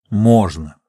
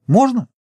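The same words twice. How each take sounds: First: Settled statement with a falling end; firm answer. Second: High, insistent question in a woman's voice; high-pitched, pressing question. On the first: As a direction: confirm it firmly, down at your usual pitch. Geologist answers her pressing question. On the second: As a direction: press eagerly for an answer, pitched well up. Woman presses geologist for answer. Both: Acted.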